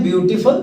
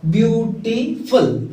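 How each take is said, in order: First: Said in the usual way. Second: "ब्यूटीफुल" drawn out slowly, syllable by syllable; careful pronunciation. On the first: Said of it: "इसका उच्चारण जब करते हैं". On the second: Shown as a demonstration. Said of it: "इसका उच्चारण जब करते हैं ब्यूटीफुल". (धीरे-धीरे उच्चारण)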